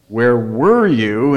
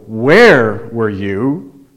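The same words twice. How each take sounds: First: The stress falls on the word were. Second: The stress falls on the word where. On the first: The speaker is irritated at being kept waiting. "Emphasize the second one" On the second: The question is about the location, not something else. "I didn't ask you how you are, I asked where were you"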